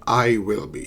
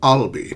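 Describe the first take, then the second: First: The words are said in full, uncontracted. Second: The words are contracted into one syllable. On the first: This is possible but less common. The speaker calls it wrong. "not I will be" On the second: This is what most people say. The speaker calls it right. "it's I'll be"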